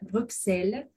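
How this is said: The x sounds like 'ks' as in taxi. The speaker is from France. "le français dise Bruxelles en prononçant le X comme dans taxi"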